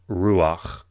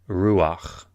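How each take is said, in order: Both takes have the same delivery.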